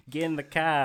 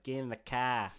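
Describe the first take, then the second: First: Hammed-up Boston accent, much higher and louder, car without r. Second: Light mock Boston accent, dropped r in car; a first tentative go at Boston. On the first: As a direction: bark it like a Boston tough guy. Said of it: "I don't know if that's right". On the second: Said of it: "the Boston's one's like".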